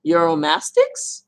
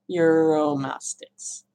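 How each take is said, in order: First: Euromastics slowly, rising high at the end; questioning attempt. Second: Euromastics drawn out slowly, falling at the end; settled attempt. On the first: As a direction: try Euromastics out as an unsure question, last syllable lifted. Tries the name as a question. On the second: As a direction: state Euromastics slowly with the pitch dropping. Repeats the name as a statement. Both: Shown as a demonstration.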